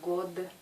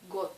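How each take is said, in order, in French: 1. La consonne finale est un d sonore. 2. La consonne finale est un t sourd. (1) "C'est pas god" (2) "ce mot se prononce got"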